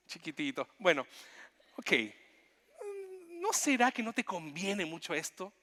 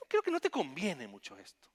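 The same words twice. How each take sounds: First: Tender Jesus. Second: Said in the usual way. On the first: Acted. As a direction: speak to him like a hurt child. Jesus tenderly speaking to Jonah.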